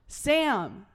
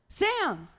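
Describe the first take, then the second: First: The name is called without fear. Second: The name is called in a scared way.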